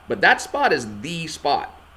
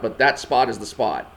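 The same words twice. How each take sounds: First: The final 'the' is stressed. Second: The final 'the' is not stressed.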